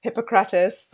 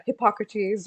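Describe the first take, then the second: First: Hippocrates said the English way, HIP-uh-kruh-tus with a clear h; American pronunciation. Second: Hippocrates said the French way, silent h, ip-AH-kruh-teez; French-style pronunciation. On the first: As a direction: say Hippocrates with a sounded h and stress on the first syllable. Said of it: "my most American accent". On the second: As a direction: drop the h in Hippocrates, stress the second syllable. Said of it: "however it is pronounced". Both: Shown as a demonstration.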